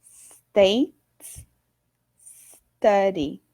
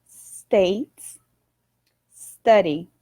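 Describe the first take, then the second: Both takes have the same delivery.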